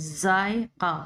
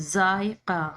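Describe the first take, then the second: No difference in how they are said.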